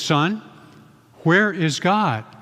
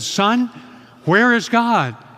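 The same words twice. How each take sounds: First: It is said with a raised voice. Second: It is said loudest of all.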